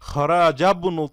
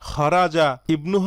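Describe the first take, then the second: First: The words run together without the 'i' vowel. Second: The 'i' vowel is pronounced as a separate syllable. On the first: The speaker calls it right. "খরাজাবনু হবে" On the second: The speaker calls it wrong. "খরাজা ইবনু হবে নাকি"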